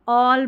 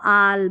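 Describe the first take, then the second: First: The vowel is a rounded 'aw' sound. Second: The vowel is an open 'ah' sound. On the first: The speaker calls it right. "इस तरीके से आप pronounce करेंगे" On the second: The speaker calls it wrong. "यहाँ पर ऐसे नहीं पढ़ेंगे इसको"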